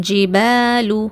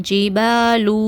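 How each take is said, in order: Both takes have the same delivery.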